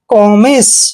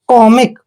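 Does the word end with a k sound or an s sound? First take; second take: s sound; k sound. First: The word ends with an s sound. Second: The word ends with a k sound. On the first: The speaker calls it wrong. "वो इसको पढ़ेगा कॉमिस, जो कि गलत है" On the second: The speaker calls it right. "सी का उच्चारण हम कै करते हैं, यानी कॉमिक"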